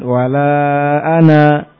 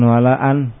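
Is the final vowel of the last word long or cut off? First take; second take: long; cut off. First: The final vowel is held long at the stop. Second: The final vowel is dropped and the word cut off. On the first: The speaker calls it right. "berhenti mad wa la ana gitu" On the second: The speaker calls it wrong. "bukan wa la an"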